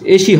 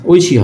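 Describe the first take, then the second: First: The first vowel is a plain 'e' sound. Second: The first vowel is an 'oi' glide. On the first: The speaker calls it wrong. "হয় না" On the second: The speaker calls it right. "হয়"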